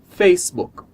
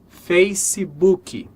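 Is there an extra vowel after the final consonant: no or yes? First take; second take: no; yes. First: It ends cleanly on the final k sound. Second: It ends with an added ee vowel sound. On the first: The speaker calls it right. "a pronúncia seria Facebook" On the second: The speaker calls it wrong. "você já ouviu essa palavra sendo pronunciada Facebook"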